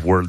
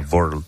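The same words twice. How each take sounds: First: The word is said with a plain English W. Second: The word is said with a German-accented W. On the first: This is the usual way to say it. "esas W's que no decía World" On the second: This is how the imitated person really said it. "ese acentazo alemán que nunca perdió"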